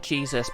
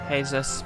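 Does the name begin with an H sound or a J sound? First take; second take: J sound; H sound. First: The name begins with a J sound. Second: The name begins with an H sound. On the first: "it's spelled Jesus" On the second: "but pronounced Jesus"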